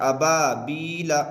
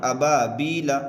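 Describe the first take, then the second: The two takes are said the same way.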